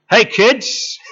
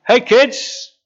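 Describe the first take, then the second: First: Higher, louder cheery shout across the water; hearty hail to the boat; friendly call. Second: Much higher and louder hail, even brighter; big cheerful hail from the beach; friendly call. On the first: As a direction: call out like greeting old friends from shore. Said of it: "Jesus says". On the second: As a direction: shout it across the water with a grin. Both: Retold or imitated.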